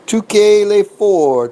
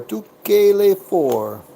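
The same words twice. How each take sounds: First: Higher and louder bet call to the dealer; raised call of the bet to the dealer. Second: Said in the usual way. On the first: Real, not acted. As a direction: announce the bet across the table.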